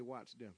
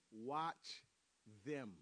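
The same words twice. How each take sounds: First: Said in the usual way. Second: "Watch", a long pause, then "them"; low, deliberate "Watch ... them", word by word; emphatic repeat. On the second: Real, not acted. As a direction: say "Watch" alone, let it hang, then "them". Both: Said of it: "I'm gonna say it again".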